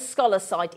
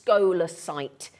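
First: The first syllable does not sound like 'skoh'. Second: The first syllable sounds like 'skoh'. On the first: The speaker calls it wrong. "rather than scholasite" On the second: The speaker calls it right. "if you imagine S K O H"

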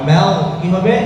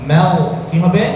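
No difference in how they are said.

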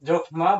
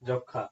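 First: The word is said with a clear m sound. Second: The word is said with no m sound. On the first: The speaker calls it wrong. "মফলা থাকার জন্য আপনারা এটি যকমা বলবেন না, যকমা বললে ভুল হবে" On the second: The speaker calls it right. "এটি জ ক্ষীয় খ মফলা আকার যক্ষা"

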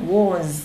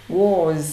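Both takes have the same delivery.

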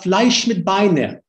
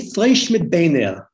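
First: It is spoken in a Polish Yiddish accent. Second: It is spoken in a Lithuanian Yiddish accent.

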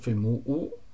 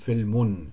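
First: The word ends in a bare vowel. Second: The word ends in a vowel plus n. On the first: The speaker calls it wrong. "dann wird es nicht so Filmu" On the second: The speaker calls it right. "sondern Filmun"

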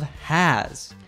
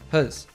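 First: The vowel is clearly pronounced in full. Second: The vowel is barely heard at all. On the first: "the reduction of has" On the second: "we almost don't hear the vowel. It is reduced to has"

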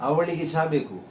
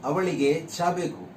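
No difference in how they are said.

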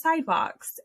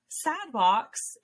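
First: It is said with a neutral accent. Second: It is said with a thick Texas accent. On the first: "instead of sidewalks" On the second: "I used to say things like sidewalks"

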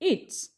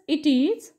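First: The words merge into one short syllable. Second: Two separate full words are said.

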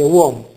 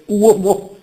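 First: The stress falls on the o of the diphthong. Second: The stress falls on the u of the diphthong. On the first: The speaker calls it right. "accentato sul secondo elemento" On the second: The speaker calls it wrong. "tendono a dire uomo"

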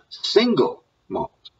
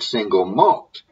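First: The stress falls on the word 'single'. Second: The stress falls on the word 'malt'. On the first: The speaker calls it wrong. "not single malt" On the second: The speaker calls it right. "the emphasis should be on the second word"

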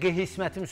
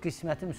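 First: The word is said with a distorted extra sound. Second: The word is said in its standard form. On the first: The speaker calls it wrong. "Mən Azərbaycanda qəhismətim sözünü tanımıram" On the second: The speaker calls it right. "Qismətim sözü var da"

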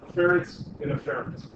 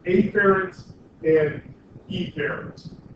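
First: The first syllables are reduced and sound alike. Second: The first syllables are exaggerated and clearly distinct. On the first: The words are said the usual way. "in proper pronunciation, they're afferent and efferent, which sound very, very similar" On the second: The two words are made easy to tell apart. "I'm overemphasizing afferent and efferent"

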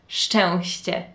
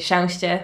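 First: Every consonant in the word is clearly pronounced. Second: A couple of consonants are dropped from the word. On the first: "it starts with sz and then it goes czy. And then it has ś, and then it has ć" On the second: "I just miss out a couple of consonants because it's just easier"

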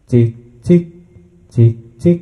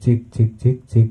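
First: The voice has an added effect on it. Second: The voice sounds dry, without an added effect.

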